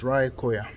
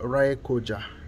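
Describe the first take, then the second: First: The last syllable starts with a Y sound. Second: The last syllable starts with an English J sound. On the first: The speaker calls it right. "the letter J is pronounced as Y" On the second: The speaker calls it wrong. "this is not Raekoja"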